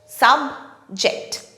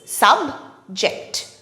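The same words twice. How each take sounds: Both takes have the same delivery.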